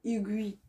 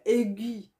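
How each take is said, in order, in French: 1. Le mot commence sans son 'a' séparé. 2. Le mot commence par un son 'a' séparé. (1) "mais on dit aiguille. Le A, elle se prononce pas" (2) "Ça peut faire aiguille"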